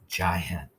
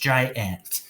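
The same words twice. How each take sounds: First: It is said quickly with a weak second vowel. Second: It is said slowly with a full second vowel. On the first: "if we say it fast uh, and say it like we normally do" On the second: "with short A closed up by itself. If we put it together"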